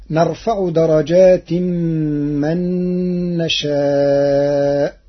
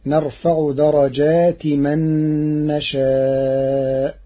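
First: "درجات" ending in tanween, merged into a hummed mim, darajatim-man. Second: "درجات" ending in a short i, darajati man, no nasal ending; without tanween. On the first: Teacher citing the verse before Warsh's reading, tanween kept. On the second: Teacher showing Warsh's reading to listeners, no tanween. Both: Shown as a demonstration. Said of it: "بعدم التنوين".

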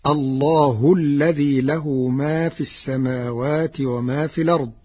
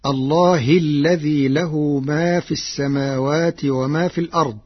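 First: الله ending in damma, Allahu; Warsh reading with damma. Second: الله ending in kasra, Allahi; first reading. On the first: Teacher demonstrates Warsh's reading, الله as Allahu. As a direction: begin fresh with الله as Allahu. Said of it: "برفع اسم الجلالة". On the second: Teacher recites the common reading before Warsh's, الله as Allahi. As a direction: start with الله as Allahi, linked to the line before. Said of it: "قرأ ورش كلمة "الله". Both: Shown as a demonstration.

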